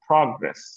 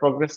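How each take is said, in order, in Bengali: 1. জোরটা প্রথম সিলেবলে পড়ে। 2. জোরটা প্রথম সিলেবলে পড়ে না। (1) "প্রতে স্ট্রেস" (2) "এটা প্রগ্রেস না"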